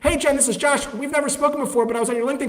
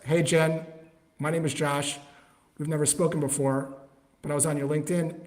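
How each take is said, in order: First: It is said in an overexcited, hypey tone. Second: It is said in a calm, casual tone.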